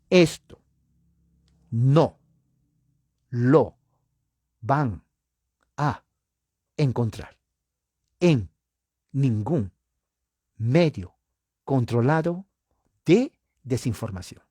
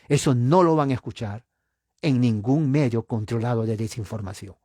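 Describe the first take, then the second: First: It is said slowly, like a robot. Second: It is said at a fast pace.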